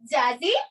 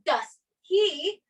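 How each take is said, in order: First: The words run together as one reduced word. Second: Each word is said separately and clearly. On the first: The speaker calls it right. "You say" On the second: The speaker calls it wrong. "you don't say"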